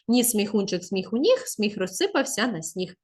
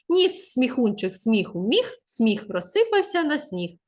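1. Читають найшвидше. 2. Читають трохи швидше. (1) "Та ще швидше" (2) "потім пришвидшити"

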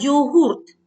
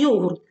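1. Наголос на останньому складі. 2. Наголос на першому складі. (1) "саме йогурт ... наголос завжди падає на останній склад" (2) "а не йогурт, так як ми звикли говорити"

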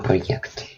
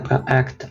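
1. Перед голосним після pro є y-глайд. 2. Голосний після pro не має y-глайду. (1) "а проєкт" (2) "кажемо не проект"

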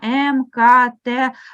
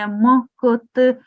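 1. Кожна літера вимовляється повною назвою з алфавіту. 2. Кожна літера вимовляється як чистий приголосний звук. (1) "а як в абеці" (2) "не як звук, не м, к, т"

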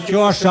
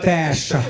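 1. Вимовляється як 'tyosha', з м'яким 'sh'. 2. Вимовляється як 'teshcha', зі звуком 'shch'. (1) "Не тьоша" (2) "а теща"

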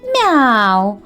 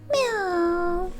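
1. Слово вимовляється гучно. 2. Слово вимовляється тихо. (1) "Кішка говорить голосно" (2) "а маленьке кошеня тихенько"

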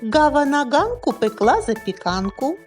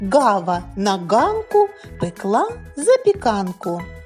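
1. Фразу вимовляють у помірному темпі. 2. Фразу вимовляють у повільному темпі.

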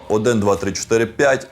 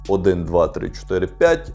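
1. Голос стиснутий, лімітований і еквалізований. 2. Голос сирий, без жодних ефектів. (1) "Ефекти активовано" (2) "ви зараз слухаєте необроблений звук"

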